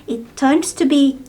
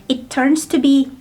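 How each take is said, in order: No difference in how they are said.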